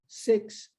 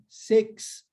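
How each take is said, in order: Both takes have the same delivery.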